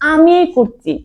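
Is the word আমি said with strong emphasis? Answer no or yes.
yes. The word আমি is said with strong emphasis. It is I, and nobody else, who is doing it.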